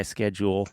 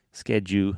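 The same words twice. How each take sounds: First: Said in the usual way. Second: "schedule" with the final L dropped, ending on "skedju"; Southern "schedule". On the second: Shown as a demonstration. Brother shows how Southerners say "schedule", as "skedju". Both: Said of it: "as we say here in the South".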